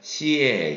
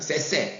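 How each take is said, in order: First: Each syllable is split into two parts. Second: Each syllable is said as one blended sound. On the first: The speaker calls it right. "떼어서 발음을 해야 됩니다" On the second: The speaker calls it wrong. "잘못된 방식이고요"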